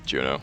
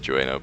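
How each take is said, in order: First: The first vowel is said as 'yoo'. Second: The first vowel is said as 'oo-eh'. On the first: The speaker calls it right. "but it's Juno" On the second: The speaker calls it wrong. "I always say Jueno"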